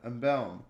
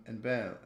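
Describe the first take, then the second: First: Embalm said again, louder and firmer; louder corrected repeat. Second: Said in the usual way. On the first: Shown as a demonstration. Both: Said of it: "repeats the word louder".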